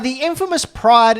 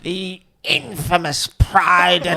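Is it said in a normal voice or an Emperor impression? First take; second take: normal voice; Emperor impression. First: It is said in his normal voice. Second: It is said in the Emperor's voice.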